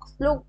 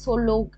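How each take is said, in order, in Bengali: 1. প্রথম দুটি ব্যঞ্জন একসাথে উচ্চারিত হয়। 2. প্রথম দুটি ব্যঞ্জনের মাঝে একটি স্বরধ্বনি বসে।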